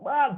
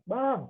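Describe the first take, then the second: First: The name is called at a higher volume. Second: The name is called at a lower volume. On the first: The child has ignored several calls already. "makin lama makin besar volumenya" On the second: The child is being called for the first time. "teriakan pertama nggak dengar-dengar"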